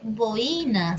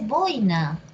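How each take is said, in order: First: The stress falls on the second syllable. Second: The stress falls on the first syllable. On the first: The speaker calls it wrong. "no se dice boina" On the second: The speaker calls it right. "se dice boina"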